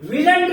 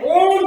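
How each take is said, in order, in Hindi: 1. यह 'n't' से पहले 'will' वाली आवाज़ रखता है। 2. इसमें 'o' स्वर है, यह 'won't' जैसा सुनाई देता है। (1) "विलंट नहीं होता है" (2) "ओंट होता है"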